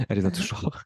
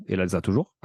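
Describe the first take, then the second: First: Playful jab, a bit higher; teasing aside to wife. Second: Said in the usual way. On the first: Acted. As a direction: tease her with a grin across the table. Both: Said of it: "Je la regarde parce qu'elle est en face".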